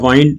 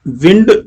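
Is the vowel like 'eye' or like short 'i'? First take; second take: eye; short i. First: The vowel is an 'eye' sound. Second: The vowel is a short 'i' sound. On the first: It is the verb meaning to wrap. "जब मैं वाइंड बोलूंगा जिसका past tense होता है wound" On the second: It is the noun meaning air. "Actually noun विंड noun है"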